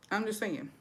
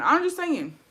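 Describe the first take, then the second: First: Quiet, trailing throwaway line; muted disclaimer. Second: High-pitched innocent aside; light, high throwaway defence; playful disclaimer. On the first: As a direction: drop it to a soft aside. Repeats disclaimer, dropped down. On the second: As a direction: lift it way up high. First take of repeated disclaimer. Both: Real, not acted.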